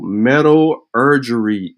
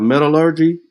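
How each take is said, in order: First: The word ends with an extra '-urgery' syllable. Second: The word ends with a plain '-urgy' syllable. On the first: The speaker calls it wrong. "metallurgery is crazy" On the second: The speaker calls it right. "Instead of metallurgy"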